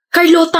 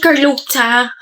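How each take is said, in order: First: Carlota with a tapped r and a clean t, kar-LO-ta; correct Carlota. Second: Carlota with English r and a ch sound, kar-LOH-cha; mocking wrong Carlota. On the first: Shown as a demonstration. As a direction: say Carlota the Spanish way, plain t. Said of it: "Carlota nga sabi". (Carlota na tamang bigkas, kar-LO-ta) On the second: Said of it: "hindi Carlota". (ginagayang maling bigkas ng Carlota, kar-LOH-cha)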